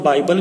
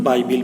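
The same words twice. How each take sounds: First: बाइबल ending in a short "-bal"; बाइबल, last syllable "bul"; alternative pronunciation. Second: बाइबिल ending in "-bil"; बाइबिल, last syllable like "bill"; alternative pronunciation. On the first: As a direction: say बाइबल with an unstressed a before the final l. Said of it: "कुछ लोग बाइबल भी कहते हैं". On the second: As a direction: say बाइबिल with a short i before the final l. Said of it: "कुछ लोग बाइबिल भी कहते हैं". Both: Shown as a demonstration.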